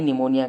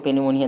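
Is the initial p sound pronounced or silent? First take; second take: silent; pronounced. First: The word begins with an n sound. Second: The word begins with a pronounced p sound. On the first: The speaker calls it right. "निमोनिया कहते हैं, वो silent है पी" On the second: The speaker calls it wrong. "इसको पेनिमोनिया नहीं"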